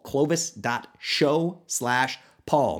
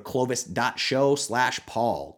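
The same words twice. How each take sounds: First: Very slow, each word of Clovis dot show slash paul set apart; slow spell-out. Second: Said in the usual way. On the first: Shown as a demonstration. Host slowly dictates the URL for listeners. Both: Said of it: "easiest U R L of all time".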